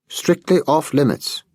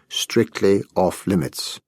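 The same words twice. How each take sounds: First: Savoring the phrase. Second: Said in the usual way. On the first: A narrator's reading. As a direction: relish every word of "Strictly off limits". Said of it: "he repeated, savoring the phrase". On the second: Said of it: "as the Americans say".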